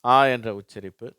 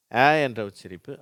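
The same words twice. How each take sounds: First: ஆ said as back open "aa", as in "father"; ஆ as "aa", not fronted "ae"; second vowel sound. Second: ஆ said as front "ae", as in "cat"; ஆ fronted to "ae", not back "aa"; first vowel sound. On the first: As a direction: emphasise ஆ as a loud long "aa". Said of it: "அடுத்தது தான்". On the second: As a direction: emphasise ஆ as a loud open "ae". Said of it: "முதலாவது உச்சரிப்பு". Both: Shown as a demonstration.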